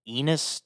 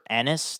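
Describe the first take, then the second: First: The first vowel is a long 'ee' sound. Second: The first vowel is a short 'eh' sound. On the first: The speaker calls it wrong. "It's not Enos like penis" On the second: The speaker calls it right. "just like Dennis"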